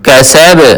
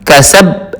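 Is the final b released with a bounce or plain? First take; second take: bounced; plain. First: The final b is released with a bounce. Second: The final b is closed without a bounce. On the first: The speaker calls it right. "बा के ऊपर कलकला करना है" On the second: The speaker calls it wrong. "हम कैसब नहीं पढ़ेंगे"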